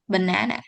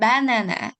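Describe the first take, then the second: First: The stress is on the second syllable. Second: The stress is on the first syllable. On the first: "instead of" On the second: "tracing the first syllable in banana"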